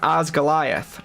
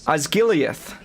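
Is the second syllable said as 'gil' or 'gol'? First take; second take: gol; gil. First: The second syllable is said as 'gol'. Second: The second syllable is said as 'gil'. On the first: The speaker calls it wrong. "not Osgoliath" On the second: The speaker calls it right. "it's Osgiliath"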